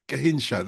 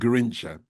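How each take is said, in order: First: The name is said the native way. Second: The name is said the anglicized way. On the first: This is the proper pronunciation. "that's how you pronounce it" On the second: This is how people here used to say it. "we used to call him Garincha"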